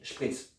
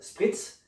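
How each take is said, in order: First: The word is pronounced the German way. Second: The word is pronounced the French way. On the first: "mais aussi à la germanique" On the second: "tu peux le prononcer à la française"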